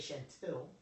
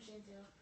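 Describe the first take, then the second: First: The name is said boldly, with strong projection. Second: The name is said weakly, without projection. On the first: The listener will remember the name. The speaker calls it right. "that's a big difference. Your projection in your voice means everything" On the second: The listener may mishear the name. The speaker calls it wrong. "oh, Shan and Tail"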